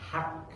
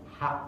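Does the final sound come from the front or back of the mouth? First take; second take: front; back. First: The final sound is an ordinary front k. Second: The final sound is a deep back qaf. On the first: The speaker calls it wrong. "huruf qaf itu diganti pakai k" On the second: The speaker calls it right. "sebetulnya hak uh, pakai qaf"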